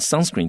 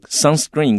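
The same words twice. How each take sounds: First: The stress is on the first syllable. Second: The stress is on the second syllable. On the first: The speaker calls it right. "注意这个重音在前面" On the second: The speaker calls it wrong. "不要念 sunscreen"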